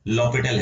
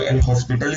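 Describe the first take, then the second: First: The h and s sounds are silent. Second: The h and s sounds are pronounced. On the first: "H और S S silent" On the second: "किसी को एल हॉस्पिटल ही बोलना हो तो बोल लेना"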